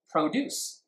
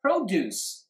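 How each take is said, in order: First: ProDUCE as a verb, DUCE stressed; stress on the second syllable. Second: PROduce as a noun, PRO high, then falling; stress on the first syllable. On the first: English teacher quizzing which syllable is stressed, stressing DUCE. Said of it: "produce is a verb". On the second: English teacher quizzing students on the noun, stressing PRO. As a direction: hit PRO high in "Produce" and drop on duce. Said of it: "请问重音在哪里". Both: Shown as a demonstration.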